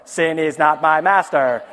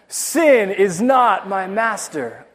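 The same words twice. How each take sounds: First: It is said in a flat, droning monotone. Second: It is said with feeling and conviction.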